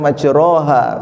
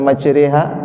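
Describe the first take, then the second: First: The middle vowel sounds like 'o'. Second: The middle vowel sounds like 'e'. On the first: The speaker calls it wrong. "tidak dibaca majroha" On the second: The speaker calls it right. "Kenapa dibaca e?"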